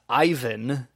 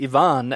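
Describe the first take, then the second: First: The name is said with an English pronunciation. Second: The name is said with a Spanish pronunciation. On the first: The speaker calls it wrong. "and not Ivan" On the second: The speaker calls it right. "we've been saying Ivan"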